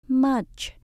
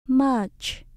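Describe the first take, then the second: First: The word ends with a 'ch' sound. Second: The same.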